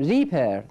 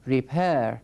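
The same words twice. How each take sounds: First: The stress is on the first syllable. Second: The stress is on the second syllable. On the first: The speaker calls it wrong. "من نمیگم ریپر" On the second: The speaker calls it right. "استرسش تأکید کلام من روی سیلاب دوم هست"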